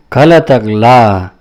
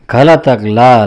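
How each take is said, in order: First: "घ लातक ला" drawn out slowly and louder, each part apart; slow demo take. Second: Said in the usual way. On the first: Shown as a demonstration. ("घ लातक ला" धीरे-धीरे, ज़ोर से) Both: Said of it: "teacher repeats syllable twice".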